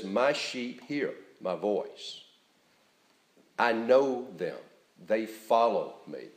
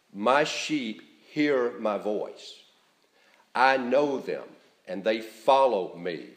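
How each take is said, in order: First: Gentle reassurance. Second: Slow, full-voiced "My sheep hear my voice"; emphatic reading. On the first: Preacher repeating Jesus' promise so it is heard, reassuringly. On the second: Preacher reading Jesus' words to the congregation, emphatic. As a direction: lean on "know" and "follow", at full voice. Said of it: "I'll try to give them emphasis as I read". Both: Real, not acted.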